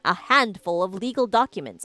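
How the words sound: It is read in an odd, put-on voice. The speaker calls it wrong.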